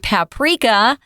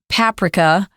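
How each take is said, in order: First: It is said with an American pronunciation. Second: It is said with a British pronunciation. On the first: This is how American speakers usually say it. "we usually say paprika in America" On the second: This is how some British speakers say it. "I've also heard some Brits say paprika"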